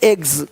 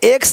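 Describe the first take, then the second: First: The word ends with a z sound. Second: The word ends with an s sound. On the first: The speaker calls it right. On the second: The speaker calls it wrong.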